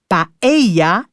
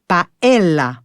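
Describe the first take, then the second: First: The word is pronounced with Spanish sounds. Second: The word is pronounced with French sounds. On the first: The speaker calls it right. "si on veut prononcer à l'espagnol, on dit paella" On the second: The speaker calls it wrong. "et non paella"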